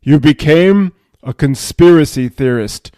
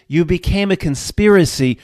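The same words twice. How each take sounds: First: Loud, booming verdict. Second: Said in the usual way. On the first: Acted. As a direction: pronounce it forcefully, like a judge. Higher self repeats verdict, booming.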